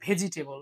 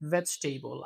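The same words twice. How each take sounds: First: It begins with a breathy stop b sound. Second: It begins with a buzzing v sound. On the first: The speaker calls it wrong. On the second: The speaker calls it right.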